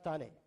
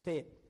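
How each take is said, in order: First: It is said with two syllables, 'thaa-nay'. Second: It is said with one syllable, 'tain'. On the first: The speaker calls it wrong. "It's not తానే" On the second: The speaker calls it right. "It's టేన్"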